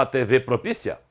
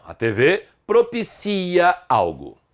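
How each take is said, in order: First: Propícia stressed on PÍ, asked softly; wrong stress on PÍ. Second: Propicia with a long stressed CI; correct stress on CI. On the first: Teacher testing the verb's reading, propícia wrongly stressed on PÍ. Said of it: "como é que você lê o verbo?". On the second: Teacher correcting the verb's reading, propicia stressed on CI. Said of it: "a sílaba tônica é o si". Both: Shown as a demonstration.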